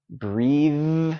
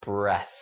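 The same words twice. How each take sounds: First: "breathe" drawn out, long EE into buzzing TH; voiced ending. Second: "breath" with a short vowel and voiceless TH; air-only ending. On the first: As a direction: hold voicing to the very end of "breathe". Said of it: "Keep that voice going". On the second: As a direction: finish "breath" with just a puff of air. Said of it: "only air". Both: Shown as a demonstration.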